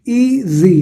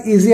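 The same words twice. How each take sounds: First: "ईजी" in two separate sounds, ई, then जी; split into syllables. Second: Said in the usual way. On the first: Shown as a demonstration. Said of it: "ई बोलते हैं फिर जी बोलते हैं". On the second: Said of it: "एक ही बार में बोलते हैं".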